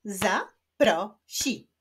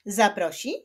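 First: "Zaprosi" slowly as za, pro, si; split into syllables. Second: Said in the usual way. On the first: Shown as a demonstration. Teacher clapping syllables of zaprosi, slowly split. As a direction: clap out "Zaprosi" in three separate beats. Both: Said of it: "Wyklaszczmy sylaby w tych wyrazach".

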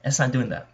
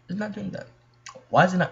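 First: Said in the usual way. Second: Small high complaint. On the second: Real, not acted. Repeats complaint about stuck loading screen.

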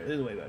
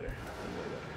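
First: Said in the usual way. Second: Whispered repeat; whispering. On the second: Shown as a demonstration. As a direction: breathe it as a whisper.

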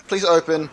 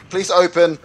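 No difference in how they are said.

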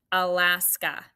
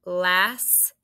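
First: Said in the usual way. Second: "Alaska" in three separate beats, A ... las ... ka; syllable by syllable. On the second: Shown as a demonstration. Teacher dictating a state name, syllable by syllable. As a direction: break "Alaska" apart with long pauses, A, las, ka. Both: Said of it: "this one is three syllables".

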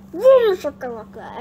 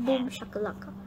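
First: Big loud "Boom", tailing off; catchphrase exclamation. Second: Said in the usual way. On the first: Pretend. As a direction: burst out on "Boom", then drop through "shakalaka". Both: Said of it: "Everyone says like that".

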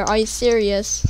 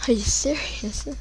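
First: Said in the usual way. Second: Breathless whisper of disbelief. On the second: Real, not acted. Gamer whispering to himself in disbelief. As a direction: whisper it to yourself, stunned. Annoyed, said aloud then whispered.

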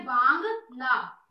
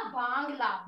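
First: बांग ला said very slowly and louder, each part split; बांग ला drawn out loud as a memory hook; slow emphatic sound-out. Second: Said in the usual way. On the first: Shown as a demonstration. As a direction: hammer out बांग ला to echo Bangladesh. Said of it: "Bangladesh में क्या बन रहा है ना". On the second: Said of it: "क्या ला?".

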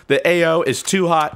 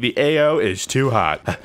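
First: Said in the usual way. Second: Soldier calling over the radio; mock military radio call. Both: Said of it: "I repeat".

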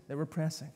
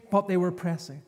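First: Quiet repeat. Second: Said in the usual way. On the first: Shown as a demonstration.

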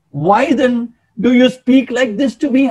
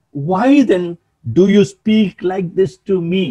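First: Higher-pitched, acted humble protest. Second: Said in the usual way. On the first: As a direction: protest the honour in Saul's place, pitched up. Repeats verse, acting out Saul's protest.

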